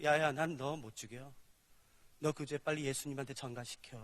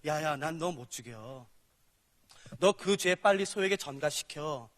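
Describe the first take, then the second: First: God speaking. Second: Low, slow voice of God; a gentle but firm God, lower and slow; lightly voiced God, slow and low; God speaking. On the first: Acted. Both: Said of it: "그래서 이렇게 말씀하세요".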